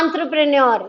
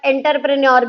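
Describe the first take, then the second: First: It starts with a nasal 'on' sound. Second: It starts with an 'en-ter' sound. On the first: The speaker calls it right. "अभी आंत्रप्रेन्योर बोलोगे" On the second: The speaker calls it wrong. "अब आप एंटरप्रेन्योर नहीं बोलोगे, वो school में था"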